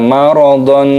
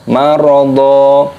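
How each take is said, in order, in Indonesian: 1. Kata itu berakhir dengan bunyi n. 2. Kata itu berakhir dengan vokal a panjang. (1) "jangan dibaca maradon" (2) "harus dibaca marada"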